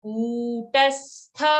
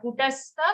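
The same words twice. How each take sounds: First: "Kutastha" with the first vowel held long. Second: "kutastha" with a short first vowel. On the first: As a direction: chant "Kutastha" stretching the koo. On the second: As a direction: say "kutastha" quickly, without holding the u. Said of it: "not kutastha". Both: Shown as a demonstration.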